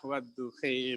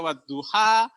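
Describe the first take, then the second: First: The final vowel is shifted toward an 'e' sound. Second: The final vowel is an open 'a' sound. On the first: This is the variant reading that emerged for them. "akhirnya muncullah wadduhe" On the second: This is the reading that is hard for some speakers. "suruh baca wadduha, itu ribet mulutnya"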